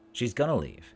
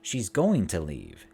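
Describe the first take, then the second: First: 'Going to' is reduced and linked as 'gonna'. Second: Each word is said fully and separately.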